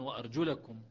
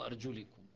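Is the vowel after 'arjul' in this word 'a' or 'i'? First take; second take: a; i. First: The vowel after arjul is a short 'a'. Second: The vowel after arjul is a short 'i'. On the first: The feet are to be washed. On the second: The feet are to be wiped.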